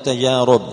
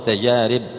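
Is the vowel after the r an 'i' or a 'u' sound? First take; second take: u; i. First: The vowel after the r is u. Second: The vowel after the r is i. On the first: The speaker calls it wrong. "ما تقول تجارب" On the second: The speaker calls it right. "تقول تجارب"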